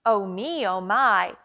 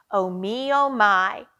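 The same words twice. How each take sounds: The two takes are said the same way.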